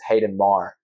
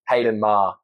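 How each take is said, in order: First: The name is said in an American accent. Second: The name is said in an Australian accent. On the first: "But in an American accent" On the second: "in an Australian accent"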